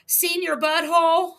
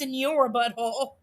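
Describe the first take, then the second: First: The first word sounds like 'seen your'. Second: The first word sounds like Spanish 'senyor'. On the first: The speaker calls it wrong. "Senior Butthole is like seen your butthole" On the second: The speaker calls it right. "I think it's supposed to be pronounced Senor Butthole"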